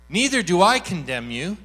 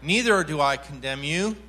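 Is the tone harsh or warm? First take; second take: warm; harsh. First: It is said in a gentle, warm tone. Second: It is said in a stern, threatening tone. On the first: The forgiveness is complete and freely given. The speaker calls it right. "It's more like" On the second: The forgiveness comes with a threat attached. The speaker calls it wrong. "here was the tone. It was off"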